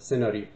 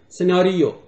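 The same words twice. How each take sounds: First: The stress is on the first syllable. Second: The stress is on the second syllable. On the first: This is how a Persian speaker says it. "فارسی زبان یا زبان فارسی فشارش روی بخش اول کلمه است" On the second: This is how an English speaker says it. "انگلیسی فشارش روی سیلاب یا بخش دومه"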